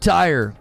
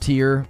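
First: The name rhymes with the word fire. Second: The name rhymes with the word ear. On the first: "I said tire. Tire, like a tire swing" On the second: "Tears pronounced tear"

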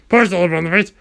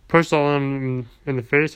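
First: The voice sounds strained and hoarse. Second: The voice sounds normal and unstrained.

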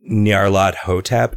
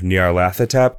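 First: The T and H are pronounced as separate sounds. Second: The T and H merge into one TH sound. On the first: The name is made of two parts joined together. The speaker calls it right. "the reason that I think that it is Nyarlath Hotep" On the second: The name is one unbroken word. The speaker calls it wrong. "instead of"

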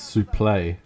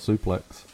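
First: The word ends without an x sound. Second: The word ends with an x sound. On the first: This is the original French-style pronunciation. "Its proper pronunciation is suple" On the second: This is the Americanized pronunciation. "an Americanization obviously takes place and people just call it suplex"

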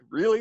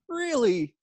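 First: The word sounds doubtful and incredulous. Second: The word sounds sincere and impressed. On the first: The commenter doubts the speaker is ready. "my first read of it was like, really? Like, oh man, maybe I'm not ready for this" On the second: The commenter is genuinely impressed. "It could have been really"

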